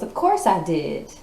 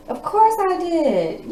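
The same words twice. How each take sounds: First: Said in the usual way. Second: Much higher, slow and louder, drawn out; high mock reply. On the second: Reader mocking the man who got hurt, high and drawn out. Tarot reader answers the masculine.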